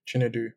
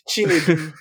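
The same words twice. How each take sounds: First: The name is said flatly, with little energy. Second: The name is said with lively, enthusiastic energy. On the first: The speaker calls it wrong. "do you want to put a bit more, you know, spice on that?" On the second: The speaker calls it right. "There we go"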